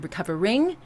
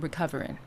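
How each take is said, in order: First: The final g sound is pronounced. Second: The final g sound is dropped. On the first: The speaker calls it wrong. "we don't say recovering" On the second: The speaker calls it right. "We chop off the the G there"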